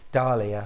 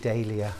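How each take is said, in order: First: The word is pronounced the American way. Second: The word is pronounced the British way. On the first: "That's the American pronunciation" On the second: "in the U K we tend to say Dahlia"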